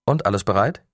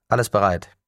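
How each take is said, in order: First: Asks with a rising end on bereit; a checking question, voice lifting at the end; questioning rise. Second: Firm falling answer, stress on Alles; confirming fall. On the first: Hiroshi asks his team if all is ready, rising question. Checking readiness before the start. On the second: Team member confirms to Hiroshi, firm falling answer. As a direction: report back, closing down on bereit. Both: A narrator's reading.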